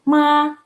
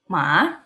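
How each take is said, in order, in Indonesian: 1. Diucapkan dengan nada pertama. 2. Diucapkan dengan nada kedua. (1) "nada ke satu" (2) "nada kedua"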